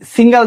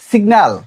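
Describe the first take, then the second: First: The word sounds like single, with ng. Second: The word sounds like signal, with g. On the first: The speaker calls it wrong. "আমরা বলি সিঙ্গেল দিছে বাসে" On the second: The speaker calls it right. "শব্দটা কি হবে?"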